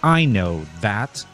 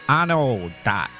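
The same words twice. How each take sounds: First: The word "that" starts with a th sound. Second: The word "that" starts with a d sound. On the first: "up here in New Hampshire, ... people walk around saying" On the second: "not in Pittsburgh. There it would be"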